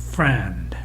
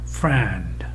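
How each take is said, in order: First: The vowel is loudest and the final consonants are weak. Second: The same.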